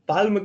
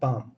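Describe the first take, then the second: First: The L sound is pronounced. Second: The L sound is silent. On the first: "पाल्म क्यों नहीं बोलते?" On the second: "एल is silent"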